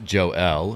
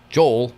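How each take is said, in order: First: The name is split into two syllables. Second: The name is run together as one syllable. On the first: The speaker calls it right. "So it's pronounced Joe L" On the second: The speaker calls it wrong. "so people don't say Joel"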